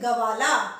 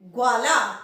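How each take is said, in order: First: A full vowel follows the g before v. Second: The g blends straight into the v. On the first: The speaker calls it wrong. "अगर हम ये पूरा ग होता तो हम बोलते गवाला, पर ये गवाला नहीं है" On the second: The speaker calls it right. "ग के जो ग है आधा वो व के साथ एकदम से मिल रहा है"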